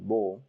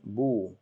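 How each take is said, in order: First: The vowel sounds like 'oh' as in more. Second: The vowel sounds like 'oo' as in zoo. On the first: The speaker calls it wrong. "it shouldn't be bo" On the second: The speaker calls it right. "it should be boo, um, like zoo"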